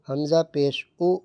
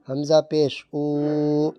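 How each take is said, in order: First: The final vowel is cut off with a jerk. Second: The final vowel is stretched out long. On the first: "ये गलत हो रहा है" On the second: "खींचना नहीं है, ये गलत हो रहा है"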